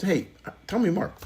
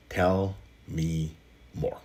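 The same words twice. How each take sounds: First: Inviting demo. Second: Slow soft delivery. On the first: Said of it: "just try it". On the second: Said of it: "those three words are". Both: Shown as a demonstration.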